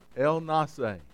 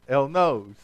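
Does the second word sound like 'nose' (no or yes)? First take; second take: no; yes. First: The second word does not sound like 'nose'. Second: The second word sounds like 'nose'. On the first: The speaker calls it right. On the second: The speaker calls it wrong.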